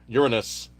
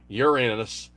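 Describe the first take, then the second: No difference in how they are said.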